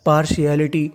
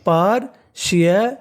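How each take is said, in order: First: Said in the usual way. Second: partiality slowly split into parts; teacher's slow, broken-up partiality; syllable by syllable. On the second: Shown as a demonstration. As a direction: sound out partiality for a class. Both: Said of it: "क्या meaning बन गई".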